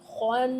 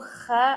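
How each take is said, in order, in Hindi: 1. kh के बाद वाला स्वर भारी 'au' है। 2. kh के बाद वाला स्वर हल्का 'a' है। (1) "औ साउंड के साथ पढ़ेंगे" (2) "ए साउंड के साथ नहीं पढ़कर"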